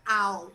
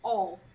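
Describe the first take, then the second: First: The vowel sounds like the one in 'cow'. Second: The vowel sounds like the one in 'ball'. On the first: The speaker calls it wrong. "Don't say ow" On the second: The speaker calls it right. "No, all, all"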